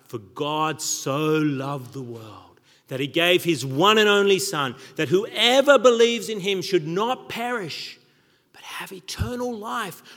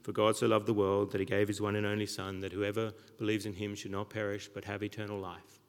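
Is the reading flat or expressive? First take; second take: expressive; flat. First: It is read in a lively, varied voice. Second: It is read in a flat, dull voice.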